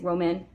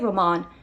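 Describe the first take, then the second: First: The name is said with an English pronunciation. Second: The name is said with a Spanish pronunciation. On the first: "I'm guessing Roman" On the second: "which is the Spanish pronunciation"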